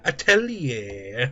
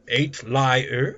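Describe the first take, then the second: First: The word ends without an R sound. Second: The word ends with an R sound. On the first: The speaker calls it right. "No, no, no" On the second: The speaker calls it wrong. "It's pronounced eight lie with an R at the end"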